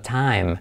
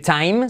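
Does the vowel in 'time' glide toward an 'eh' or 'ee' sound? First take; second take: eh; ee. First: The vowel glides toward a lighter 'eh' sound. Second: The vowel glides toward a full 'ee' sound. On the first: The speaker calls it right. "sino time. Como la segunda parte del diptongo, una E" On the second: The speaker calls it wrong. "Cuidado no decir time"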